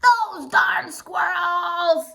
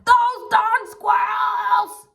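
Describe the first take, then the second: First: Put-on slow drawn-out grumpy old man shout; old man yell. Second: Put-on slow, high, drawn-out shout of a grumpy old man; old man yell. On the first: Old man yelling at the squirrels, slow and drawn out. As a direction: stretch it out like a cranky old man. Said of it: "yelled Old Man Fuquire". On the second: Old man shouting at the squirrels, slow high yell. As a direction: shake your fist and bellow it slowly. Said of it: "shook his old man fist and yelled".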